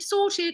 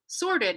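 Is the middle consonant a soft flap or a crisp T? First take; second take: crisp T; soft flap. First: The middle T is a crisp, released T. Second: The middle T is a soft, D-like flap. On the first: "they say it in their accent" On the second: "when I would say sorted"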